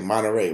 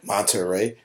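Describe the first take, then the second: First: The T sound is dropped, California style. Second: The T sound is clearly pronounced.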